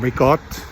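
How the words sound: It is said in Italian American dialect.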